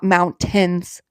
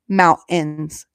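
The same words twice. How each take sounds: First: The middle T sound is clearly pronounced. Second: The middle T sound is dropped. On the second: "I don't say the T"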